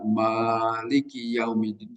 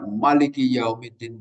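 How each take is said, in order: First: The first vowel of Maliki is held long. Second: The first vowel of Maliki is short. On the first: "bisa dipanjangkan" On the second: "dibaca pendek"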